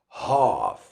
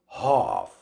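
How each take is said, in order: No difference in how they are said.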